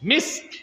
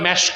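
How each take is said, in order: First: It is said with an 'i' vowel and 's'. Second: It is said with an 'e' vowel and 'sh'. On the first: The speaker calls it right. "উচ্চারণটা কি? মিস্ক।" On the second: The speaker calls it wrong. "যেটাকে আপনারা ভুল বলেন মেশক"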